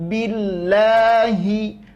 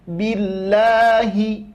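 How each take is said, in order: First: The h is pronounced clearly and distinctly. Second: The h is pronounced clearly and distinctly.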